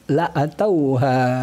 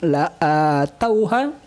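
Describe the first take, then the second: First: The vowel after the hamzah is short. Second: The vowel after the hamzah is long. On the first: "tanpa memanjangkan hamzah" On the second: "bukan la'atauha"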